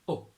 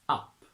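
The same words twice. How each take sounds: First: It has a Yorkshire 'oo'-like vowel. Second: It has a standard British 'uh' vowel. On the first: "to Yorkshire" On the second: "from R P"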